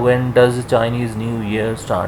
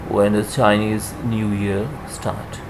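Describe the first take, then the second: First: The word 'does' is stressed. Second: The word 'does' is unstressed. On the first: The speaker calls it wrong. "आपने इस तरह से नहीं बोलना" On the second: The speaker calls it right. "Helping verb पे stress नहीं होता"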